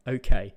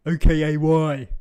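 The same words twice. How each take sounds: First: Said in the usual way. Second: "O K A Y" spelled letter by letter. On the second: Shown as a demonstration. Showing the younger generation the wrong way: "O K A Y" letter by letter. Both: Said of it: "not O K A Y".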